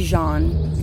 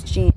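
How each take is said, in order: First: "Jean" said like "zhahn"; French pronunciation. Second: "Jean" said like English "jeen"; English pronunciation. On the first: Host reconsidering the cemetery's name, "Jean" as French "zhahn". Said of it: "Well, it might be Jean". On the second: Host answering the co-host's question, "Jean" as "jeen". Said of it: "Is it Jean or Jean?". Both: Shown as a demonstration.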